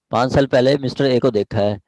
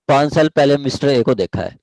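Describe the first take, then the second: No difference in how they are said.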